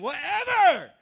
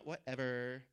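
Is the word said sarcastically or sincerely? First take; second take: sincerely; sarcastically. First: The word is said with a sincere, open tone. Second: The word is said with a dismissive, sarcastic tone. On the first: The speaker accepts whatever happens. The speaker calls it right. "We're talking whatever. Whatever happens" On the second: The speaker doesn't care. The speaker calls it wrong. "not whatever. ... We're not talking sarcasm"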